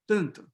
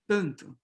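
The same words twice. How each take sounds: The two takes are said the same way.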